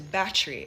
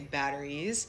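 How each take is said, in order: First: It is said condensed, in a Jamaican accent. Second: It is said in an American accent.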